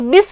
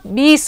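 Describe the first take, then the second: First: The vowel i is said short. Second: The vowel i is said long. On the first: The speaker calls it wrong. "बीस नहीं होगा" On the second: The speaker calls it right. "बीस होगा"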